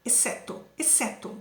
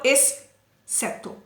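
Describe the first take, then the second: First: "exceto" with one plain s sound; "exceto" said softly and correctly; right pronunciation. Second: "exceto" with a doubled, hissed s; "exceto" said wrongly, s sound stretched; wrong pronunciation. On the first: ("exceto" certo, com um só som de s) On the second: ("exceto" errado, com o s dobrado) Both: Shown as a demonstration. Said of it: "Eu não falo exceto".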